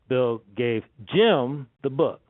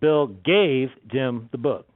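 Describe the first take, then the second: First: The stress is on Jim. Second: The stress is on gave.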